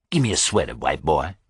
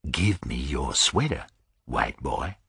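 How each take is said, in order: First: Said in the usual way. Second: Low, softer threat; quiet menace. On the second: Acted. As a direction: say it softly with menace.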